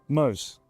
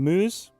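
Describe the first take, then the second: First: The name is said with a Spanish pronunciation. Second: The name is said with an English pronunciation. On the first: This is the usual form of the name. "you would normally say it Moose" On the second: This is the form the player asked for. "Has told me to pronounce his name Moose"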